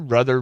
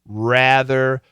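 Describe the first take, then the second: First: The first vowel sounds like 'uh'. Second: The first vowel is a long stretched 'a'. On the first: The speaker calls it wrong. "her pronunciation is weird, almost like brother" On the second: The speaker calls it right. "Get that short A, stretch it out"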